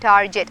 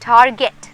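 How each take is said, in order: First: The g is said as a soft j. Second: The g is said as a hard g. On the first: The speaker calls it wrong. "Not" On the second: The speaker calls it right. "So it is"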